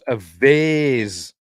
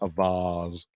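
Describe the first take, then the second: First: Vase is said the American way. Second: Vase is said the British way.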